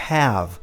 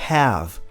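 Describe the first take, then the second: The two takes are said the same way.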